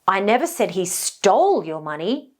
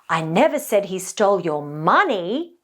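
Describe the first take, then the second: First: The stress falls on the word stole. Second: The stress falls on the word money. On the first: He may have only borrowed it. "now the implication is maybe somebody borrowed it" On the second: He may have taken something other than money. "now this implies that maybe he stole something else completely"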